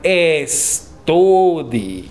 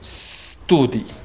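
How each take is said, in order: First: The word starts with an added e vowel. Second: The word starts directly with the s sound. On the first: The speaker calls it wrong. "no digan estudi" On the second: The speaker calls it right. "Hay que decir studi"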